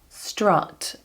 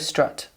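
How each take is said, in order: First: The vowel is an open, wide sound. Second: The vowel is a neutral schwa sound. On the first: "modern received pronunciation would be strut, strut, open it up" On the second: "a lot of people just do a schwa now"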